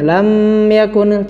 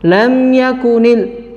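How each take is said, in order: First: The lips stay closed on the m too long. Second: The m is short and clearly released. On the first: The speaker calls it wrong. "Tidak boleh berlama-lama menempelkannya. ... tidak ya" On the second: The speaker calls it right. "Harus dibaca jelas"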